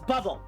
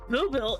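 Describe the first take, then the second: First: The first syllable sounds like 'bub'. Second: The first syllable sounds like 'boo'. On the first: The speaker calls it right. "It looks like bubble" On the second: The speaker calls it wrong. "Ew, gross. I'm not saying it like that. That's stupid"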